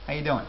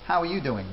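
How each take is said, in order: First: The word 'are' is left out. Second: The word 'are' is clearly spoken.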